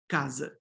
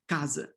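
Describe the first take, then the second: First: The final vowel is a weak reduced sound. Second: The same.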